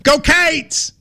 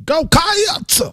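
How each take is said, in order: First: Cats as one clipped syllable, higher; Kentucky cheer. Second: Cats dragged into two syllables, much higher. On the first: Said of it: "in Kentucky, we go". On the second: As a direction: overdo the cheer, adding a syllable. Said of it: "You're adding a syllable". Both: Shown as a demonstration.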